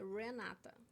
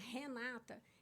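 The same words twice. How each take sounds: First: The name begins with an English r sound. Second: The name begins with a breathy h-like sound. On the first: This is how people in Canada say the name. "eles dizem que o meu nome é Renata" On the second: This is how the speaker says her own name. "eles pensam que o meu nome começa com H"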